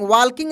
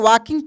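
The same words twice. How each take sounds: First: The L sound is pronounced in the word. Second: The L sound is silent in the word. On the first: The speaker calls it wrong. "वॉकिंग नहीं पढ़ेंगे" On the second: The speaker calls it right. "यहाँ पे एल silent रहेगा"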